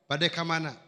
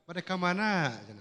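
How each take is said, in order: First: It is said in a plain Banten way. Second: It has a Jampang lilting tune at the end.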